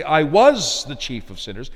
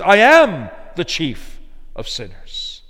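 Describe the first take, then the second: First: "was" lifted, the rest even; stress on was. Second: Slow and firm, "am" hit hard; stress on am. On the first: Preacher contrasting what Paul did not say, stress on was. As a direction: lean on "was" as the wrong reading. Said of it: "You notice he doesn't say". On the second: Preacher giving Paul's true words, stress on am. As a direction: press down on "am", unhurried. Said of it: "He says". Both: Shown as a demonstration.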